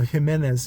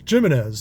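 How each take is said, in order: First: The name is said with a Spanish accent. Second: The name is said with an English accent. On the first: The speaker calls it right. "instead of Jimenez" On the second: The speaker calls it wrong. "some people get a little butthurt too when you say like Jimenez"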